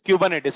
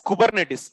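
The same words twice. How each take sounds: First: It is said in the local accent. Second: It is said in an English accent. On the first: "here accent is exact pronunciation" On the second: "from English accent"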